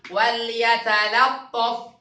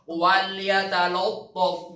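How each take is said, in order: First: The second L sound is thin and light. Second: The second L sound is thick and heavy. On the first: The speaker calls it right. "Itu salah. Coba kita dengar" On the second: The speaker calls it wrong. "Lam kedua tebal. Salahin dulu ya"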